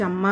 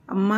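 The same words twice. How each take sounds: First: Retold shout for mother, only mildly raised; calling out to mother in mock yell; mild mock yell of amma; loud call. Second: Short groan of pain; mild retold pained cry of amma. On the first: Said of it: "అని గట్టిగా అరిచా". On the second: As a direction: wince out amma as nails dig in. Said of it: "అని బాధగా ములిగి".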